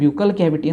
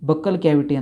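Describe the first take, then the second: First: The first syllable sounds like 'byoo'. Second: The first syllable sounds like 'buh'. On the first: This is how it is said in America and Canada. "ಕೆನಡಾದಾಗ, ಅಮೇರಿಕಾದಾಗ ... ಅಂತ pronounce ಮಾಡ್ತಾರೆ" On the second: This is how it is said in some other places. "ಕೆಲವೊಂದು ಕಡೆ ... ಅಂತಾರೆ"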